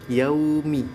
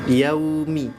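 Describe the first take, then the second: The two takes are said the same way.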